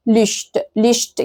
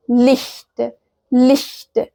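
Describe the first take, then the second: First: "لشت" as lisht with an ordinary sh; wrong sh pronunciation. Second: "لشت" as Licht with airy palatal ch; correct ich sound. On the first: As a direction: mispronounce "لشت" with a plain sh. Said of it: "ما اسمهاش لشت". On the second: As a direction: model "لشت" as German Licht, not lisht. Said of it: "والتانية اسمها لشت". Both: Shown as a demonstration.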